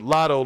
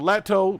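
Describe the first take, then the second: First: The first vowel sounds like the o in cot. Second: The first vowel sounds like the a in cat. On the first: "Lotto like lottery" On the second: "Lotto like, like like lactose"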